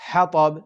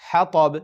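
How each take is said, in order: Both takes have the same delivery.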